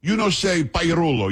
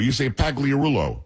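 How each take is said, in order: First: Put-on Pagliarulo as pa-ya-RO-lo, Italian-accented and higher. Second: Pagliarulo slowly as PAG-lee-a-RU-lo, hard g; mocked mispronunciation. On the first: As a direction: correct him with an Italian "pa-ya-RO-lo" for Pagliarulo. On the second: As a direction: quote back the hard-g Pagliarulo, drawn out. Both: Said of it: "with a thick, uh, um, Italian accent".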